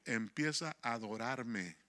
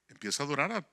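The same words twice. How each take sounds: First: Softer, slower voice for "Empieza a adorarme"; the Spirit's gentle command, said slow and soft. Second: Said in the usual way. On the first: Retold or imitated. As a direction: hush it down and slow it like a divine whisper. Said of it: "el Espíritu Santo me dijo".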